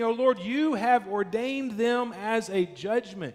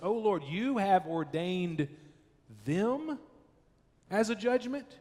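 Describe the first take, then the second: First: It is read as a plain statement. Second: It is said as an accusing question.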